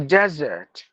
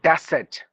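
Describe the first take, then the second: First: The middle consonant is a buzzing Z sound. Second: The middle consonant is a hissing S sound. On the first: The speaker calls it right. "It's a desert" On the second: The speaker calls it wrong. "Not the yes sound like desert"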